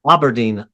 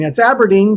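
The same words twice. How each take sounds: First: Aberdeen with ah as in father, lower; the mispronounced Aberdeen, ah vowel; old wrong Aberdeen. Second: AB-er-deen like apple; teacher's model of Aberdeen; correct Aberdeen. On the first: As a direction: Aberdeen said AH-ber-deen. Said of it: "I always wanted to call it". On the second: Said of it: "Ab-, Aberdeen". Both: Shown as a demonstration.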